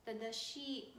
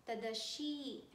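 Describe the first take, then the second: Both takes have the same delivery.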